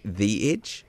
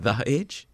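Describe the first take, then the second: First: "thee", long vowel in THE. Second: "thuh", short neutral vowel in THE. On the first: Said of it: "it's The Edge". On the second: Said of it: "apparently it's not The Edge". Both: Shown as a demonstration.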